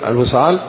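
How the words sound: It is said with a questioning tune. It asks something. "نغمة إيش؟ استفهامية"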